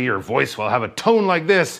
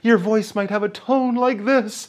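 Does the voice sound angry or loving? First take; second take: angry; loving. First: The voice sounds angry. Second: The voice sounds loving and tender.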